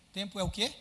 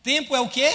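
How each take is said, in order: First: Said in the usual way. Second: Preacher loudly pressing a shy congregation for an answer; loud challenge. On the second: Real, not acted. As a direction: shout the question, high and loud. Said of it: "Vocês ficam com vergonha, com medo".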